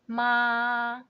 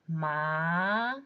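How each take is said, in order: First: The pitch stays high and level. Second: The pitch rises from mid to high. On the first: "First one" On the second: "And in second tone"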